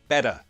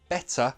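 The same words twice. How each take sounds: First: The middle consonant is a soft D sound. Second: The middle consonant is a crisp T sound. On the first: "she changes the T for a D sound" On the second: "instead of better"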